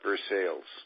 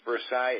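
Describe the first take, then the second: First: The name gets an altered local pronunciation. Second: The name gets its expected standard pronunciation.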